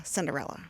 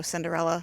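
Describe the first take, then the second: First: Low, quiet echoed repeat of Cinderella; deep echo. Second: Said in the usual way. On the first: Shown as a demonstration. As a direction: drop the pitch down for an echo. Host echoes title lower.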